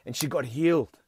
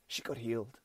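First: Said in the usual way. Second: Much softer, almost breathed; hushed echo. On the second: Shown as a demonstration. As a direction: drop the voice to a hush. Echo repeat nearly whispered.

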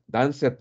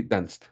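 First: Danced said as two syllables, danc-ed, with a spoken e; Danced with an extra vowel before the d; wrong pronunciation. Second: Danced in one syllable ending in st, danst; danced clipped to one beat with a final t; correct pronunciation. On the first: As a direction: sound out Danced as danset, the mistake to avoid. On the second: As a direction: say danced as danst, no extra vowel. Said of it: "pero sí danced". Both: Shown as a demonstration.

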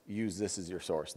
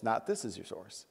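First: Quiet, pointed contrast on Use; stress on Use. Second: This leaned on with a rising tune; quiet contrast, this stressed and rising. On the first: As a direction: Use leaned on, this kept light. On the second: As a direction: point to the phone and push this. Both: Shown as a demonstration.

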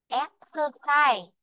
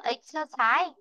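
First: "Exercise" slowly with EX stressed; slow model. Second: "exercise" stressed on the last syllable, ex-er-CISE; the wrong way, stressing "exercise" on CISE; wrong stress shown. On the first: Teacher modelling "Exercise" for Mỹ Duyên. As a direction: stress the first syllable of "Exercise". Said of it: "Chứ chúng ta không đọc là exercise". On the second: Teacher showing the wrong stress in "exercise". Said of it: "Chứ chúng ta không đọc là". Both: Shown as a demonstration.

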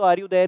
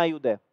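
First: "Are you there?" with the r rolled in are; Indian pronunciation. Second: "Are you there?" with no r, said as ah you the-ah; American pronunciation. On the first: Teacher showing how Indians say "Are you there?" with the r. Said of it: "हम लोग British accent थोड़ा ज़्यादा बोलते हैं". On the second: Teacher showing how Americans say "Are you there?". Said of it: "तो वो ऐसे बोलते हैं". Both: Shown as a demonstration.

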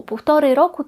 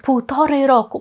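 First: Półtorej said with a rising tune; common mistake. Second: Półtorej said with a falling tune; common mistake. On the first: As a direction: say Półtorej roku, rising at the end. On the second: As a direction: say Półtorej roku, falling at the end. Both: Shown as a demonstration. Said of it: "ми не кажемо польською".

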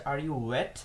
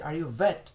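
First: "wet" begun with a rounded W sound. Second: "wet" begun with a V sound, as "vet". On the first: What the German thinks he was asked, "wet" with a clear W. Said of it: "সে তখন মনে করলো যে তাকে জিজ্ঞেস করা হচ্ছে". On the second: Woman asks the German if he's a veteran, "wet" said as "vet". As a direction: say "wet" as "vet", lip on teeth. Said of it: "ডাব্লিউ কে ভি এর মতো উচ্চারণ করে". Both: Shown as a demonstration.

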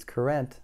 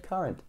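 First: "currant" sounded out as ker-ENT; quoting misreading. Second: "current" with stress up front, KUR-unt; corrected reading. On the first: Reader explaining the slip, misread "currant". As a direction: give "currant" a full "rent" ending. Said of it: "I read it as currant". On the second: Reader correcting the slip, proper "current". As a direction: say "current" with a weak second syllable. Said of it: "It meant current". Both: Shown as a demonstration.

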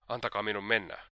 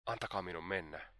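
First: Understated desperate exclamation; a mild cry of desperation. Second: Soft, subdued plea; hushed, imploring request; pleading. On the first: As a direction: exclaim it in restrained despair. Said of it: "huudahti hän epätoivoisena". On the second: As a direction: beg quietly to be released. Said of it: "sanoi Dunja rukoilevasti". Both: A narrator's reading.

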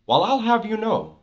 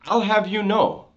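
First: Higher, mock-proper convict line; convict phrase. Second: Higher, imitating a street convict's put-on formality; convict phrase. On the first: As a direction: say it like a con puffing himself up. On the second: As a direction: quote it like an old-school con trying to sound proper. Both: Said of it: "he'll even say the word, the phrase".

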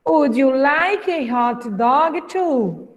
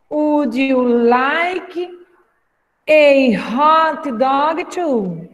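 First: Said in the usual way. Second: Very slow, split in two chunks; slow chunked teacher read; chunked slow model. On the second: Shown as a demonstration. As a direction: break it up for learners to repeat. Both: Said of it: "pra repetir aí em casa".

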